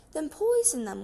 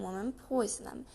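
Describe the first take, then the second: First: Louder and higher, an irritated snap; impatient order. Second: Said in the usual way. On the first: A narrator's reading. Mrs Bean orders Mabel from upstairs, irritated and loud. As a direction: bark it at the maid.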